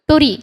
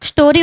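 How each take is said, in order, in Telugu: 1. ఈ పదం t ధ్వనితో మొదలవుతుంది. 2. ఈ పదం s ధ్వనితో మొదలవుతుంది. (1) "దాన్నేం చదువుతాం? టోరీ" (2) "స్టోరీ ఉందనుకో"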